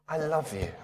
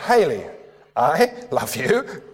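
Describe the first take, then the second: First: I love you said softly and tenderly; soft loving demo. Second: I love you drawn out slowly, rising on you; slow playful I love you; slow teasing demo. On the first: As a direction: breathe it gently to her, laughing a little. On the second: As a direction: stretch it playfully, lift the last word. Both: Shown as a demonstration. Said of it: "the intonation does something different".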